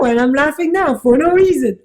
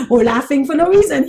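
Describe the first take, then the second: First: Words carried on a laugh; laughing while talking. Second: Said in the usual way. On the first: Real, not acted. Teacher laughing at her own point, giggly. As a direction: let the giggle leak into the words. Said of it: "Here I go".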